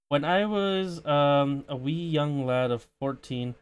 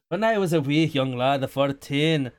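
First: It is said in the speaker's ordinary accent. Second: It is said in an exaggerated put-on accent. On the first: The speaker calls it wrong. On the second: The speaker calls it right.

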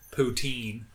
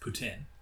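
First: The word is said with an English pronunciation. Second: The word is said with a French pronunciation. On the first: The speaker calls it wrong. "English people call it poutine, which is hilarious" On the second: The speaker calls it right. "It's poutine"

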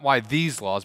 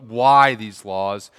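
First: The stress falls on the word these. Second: The stress falls on the word why. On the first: It asks why these laws rather than others. The speaker calls it wrong. "Not why these laws" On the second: It asks what purpose the laws serve. The speaker calls it right. "but why these laws"

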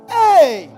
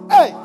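First: The shout sounds amazed and full of wonder. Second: The shout sounds startled and frightened. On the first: Something has filled the speaker with wonder. "There is a shout that when something marvels you, you're like" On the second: Something has scared the speaker. "There is a shout that when something scares you, you shout"

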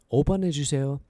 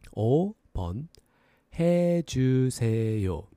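First: It is said at a faster pace. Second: It is said at a slower pace.

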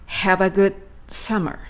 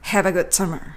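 First: The d and s are pronounced separately. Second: The d and s merge into a ts sound. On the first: "D とS をくっつけずに分けて発音するとこのようになります" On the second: "good のD とsummer のS のリンキングが起こっていますね"

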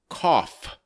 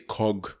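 First: The word ends with an f sound. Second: The word ends with a hard g sound. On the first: The speaker calls it right. "We say cough" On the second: The speaker calls it wrong. "We don't say cog"

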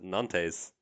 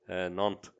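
First: The name is said with an anglicized pronunciation. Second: The name is said with a French pronunciation. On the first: The speaker calls it wrong. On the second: The speaker calls it right.

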